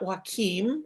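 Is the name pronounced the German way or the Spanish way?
Spanish. The name is pronounced with Spanish sounds. The speaker calls it wrong. "which is the Spanish way of pronouncing it"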